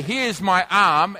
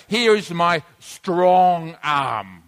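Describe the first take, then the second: First: Said in the usual way. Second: "strong" said slowly and heavily, with weight; slow, stressing "strong" to show emphasis. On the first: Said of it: "it's like if I say". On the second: Shown as a demonstration. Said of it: "I want to make an emphasis".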